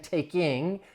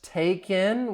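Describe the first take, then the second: First: The final G sound is clearly heard. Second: The final G sound is dropped. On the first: "I'm not saying taking" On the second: "you hear that G dropping"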